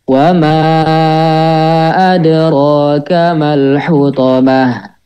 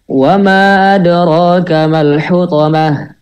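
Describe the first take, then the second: First: It is recited at a moderate, medium pace. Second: It is recited quickly, with shorter vowels. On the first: "lanjut ke tadwir" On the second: "kalau yang hadar"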